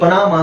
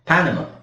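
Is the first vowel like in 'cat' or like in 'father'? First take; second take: father; cat. First: The first vowel sounds like 'a' in father. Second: The first vowel sounds like 'a' in cat. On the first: The speaker calls it wrong. "ಇದನ್ನ ಸುಮಾರು ಜನ ಓದಿದ್ರೆ ಪನಾಮ ಅಂತ ಹೇಳ್ತಾರೆ" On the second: The speaker calls it right. "ಇದು actually ಇದನ್ನ ಪ್ಯಾ ಪ್ಯಾನಮ"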